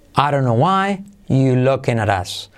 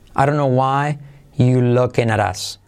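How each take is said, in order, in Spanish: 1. La 're' después de 'you' se pierde. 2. La 're' después de 'you' se pierde.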